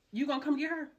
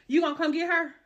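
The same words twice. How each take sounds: First: Said in the usual way. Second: Louder, higher repeat; demanding he come get her. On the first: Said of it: "first take quieter". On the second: Retold or imitated. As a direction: raise it the second time.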